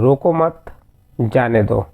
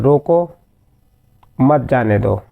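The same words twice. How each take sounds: First: There is a pause after mat. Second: There is a pause after roko. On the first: "रोको मत के बाद लगा है अल्पविराम" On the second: "दूसरे वाक्य में रोकना चाहा गया है"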